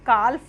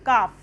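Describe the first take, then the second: First: The L sound is clearly pronounced. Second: The L sound is left out. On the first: The speaker calls it wrong. "काल्फ नहीं पढ़ेंगे" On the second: The speaker calls it right. "इसका sound होगा काफ"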